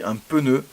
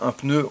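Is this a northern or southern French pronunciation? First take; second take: southern; northern. First: It is said with an extra vowel sound added. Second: It is said plainly, with no extra sound added. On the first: The speaker calls it right. "dans le sud, on a tendance à rajouter des lettres" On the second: The speaker calls it wrong. "on ne dit pas un pneu"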